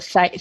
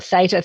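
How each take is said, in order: First: "theta" said THEE-ta, long ee; "theta" with the first syllable like "thee"; Australian theta. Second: "theta" said THAY-ta, first vowel as in "say"; "theta" with an ay sound, the American way. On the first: [name] explaining how Australians say it, "theta" as THEE-ta. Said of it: "we call it theta". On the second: [name] contrasting the American way, "theta" as THAY-ta. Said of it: "Americans call it theta". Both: Shown as a demonstration.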